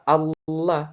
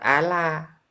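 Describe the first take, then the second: First: The l sound is thick and heavy. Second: The l sound is thin and light. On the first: The speaker calls it right. "lamnya tebal" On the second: The speaker calls it wrong. "bukan Allah"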